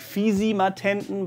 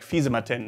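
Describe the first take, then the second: First: It is pronounced carefully, exactly as spelled. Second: It is pronounced in a casual, reduced everyday way. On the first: "you write it like Fisimatenten" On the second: "you usually say it like Fisimatenten"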